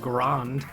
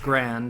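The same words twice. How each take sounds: First: It is said with a French pronunciation. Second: It is said with an American English pronunciation. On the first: "and then in French, that's how you say, like, large, and that's pronounced grand" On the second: "in like American English, you see uh, grand spelled that way and it's still pronounced grand"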